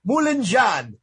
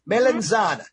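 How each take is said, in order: First: It is said in Italian-American dialect pronunciation. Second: It is said in standard Italian pronunciation.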